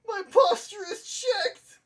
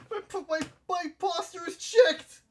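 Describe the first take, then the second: First: Much higher, slow, wailing shout; mock wailing cry. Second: High, light, playful voice; high mock announcement. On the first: Repeating to chat, a hammed-up high wailing cry. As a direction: wail it out like a hammed-up lament. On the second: To chat, a playful high announcement of his posture.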